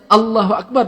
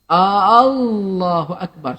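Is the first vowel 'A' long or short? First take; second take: short; long. First: The first vowel is said short. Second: The first vowel is drawn out long. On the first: It states that God is the greatest. The speaker calls it right. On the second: It asks whether God is the greatest. The speaker calls it wrong. "kena ada alif satu lagi dekat depan, dia dah jadi persoalan"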